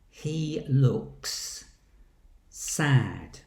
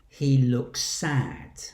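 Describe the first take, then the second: First: A short gap separates two distinct S sounds. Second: The two S sounds merge into one long S. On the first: This is clear speech for a large group. "Two distinct S sounds" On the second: This is ordinary natural speech. "There's only one long S sound"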